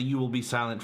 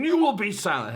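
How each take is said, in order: First: Said in the usual way. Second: Higher, louder stern order; mock angry command. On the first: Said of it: "totally different inflection than that episode". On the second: Fan imitating Bortus silencing someone, angry. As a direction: bark it like a furious alien officer. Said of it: "being extremely angry and saying".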